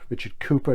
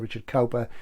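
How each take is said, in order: First: The surname begins with a 'coo' sound. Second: The surname begins with a 'cow' sound. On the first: The speaker calls it right. "is the correct pronunciation" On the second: The speaker calls it wrong. "but I say Richard Cowper so we know who we're talking about"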